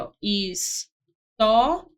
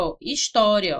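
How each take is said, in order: First: Slow, stretched história with a rising end; teacher stretching história, rising; drawn-out história. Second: Said in the usual way. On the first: Shown as a demonstration. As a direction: say história slowly, stretching each syllable.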